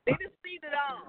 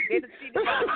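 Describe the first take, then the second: First: Said in the usual way. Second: Louder repeat. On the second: Real, not acted.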